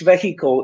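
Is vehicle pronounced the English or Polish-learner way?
Polish-learner. It is pronounced the Polish-learner way. The speaker calls it wrong. "When you say this vehicle is mine"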